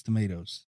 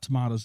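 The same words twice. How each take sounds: First: "tomatoes" said low and soft as the correction; corrected pronunciation of tomatoes. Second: "tomatoes" said as the version being corrected; rejected pronunciation of tomatoes. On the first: Co-host correcting a film title, corrected "tomatoes". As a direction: offer "tomatoes" as the preferred variant, lower. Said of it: "It's not tomatoes". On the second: Co-host correcting a film title, rejected "tomatoes". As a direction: offer "tomatoes" as the wrong variant. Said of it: "it's tomatoes". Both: Shown as a demonstration.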